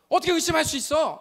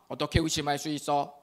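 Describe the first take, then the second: First: It is read expressively, like a real challenge. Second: It is read flatly, without expression. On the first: The speaker calls it right. "이렇게 여러분이 딱 읽어주셔야죠" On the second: The speaker calls it wrong. "이렇게 하면 안 되고"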